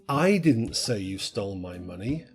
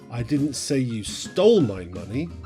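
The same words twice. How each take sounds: First: The word "I" is stressed. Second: The word "stole" is stressed. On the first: Someone else said it. "Someone else said it" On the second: The money was taken some other way. "you just didn't steal it"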